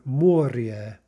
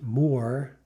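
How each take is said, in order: First: The word ends with a soft 'ryeh' sound. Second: The word ends with a plain, hard 'reh' sound. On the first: The speaker calls it right. "but rather moria" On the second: The speaker calls it wrong. "isn't more, right, as you might think"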